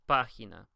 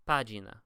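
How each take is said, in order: First: The g sounds like an English h. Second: The g sounds like an English j. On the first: The speaker calls it right. "we pronounce it página" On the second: The speaker calls it wrong. "It's not pronounced página"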